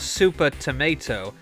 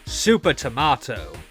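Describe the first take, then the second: First: Tomato is said with an American pronunciation. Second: Tomato is said with a British pronunciation.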